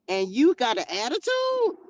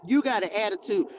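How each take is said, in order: First: Sharply questioning, ATTITUDE swooping upward; mock incredulity. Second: Said in the usual way. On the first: Preacher scolding Cain for sassing the Lord, mock incredulity. Incredulous at Cain's back talk.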